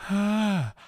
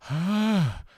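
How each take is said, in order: First: A weak, breathy tone with a gap between folds. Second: The same.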